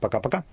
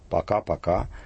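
First: It is said fast with the vowels swallowed. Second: It is said at a normal, unhurried pace. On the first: It is a farewell borrowed from English. "убыстренное «пока-пока» с проглатыванием, редуцированием гласных" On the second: It is an ordinary Russian repeated farewell. "это делается в обычном темпе речи"

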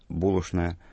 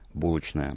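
First: The middle consonants are pronounced as 'shn'. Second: The middle consonants are pronounced as 'chn'. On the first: This is the traditional Moscow pronunciation. "Традиционное московское произношение «шн»" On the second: This is the traditional Petersburg pronunciation. "традиционное петербургское «чн»"

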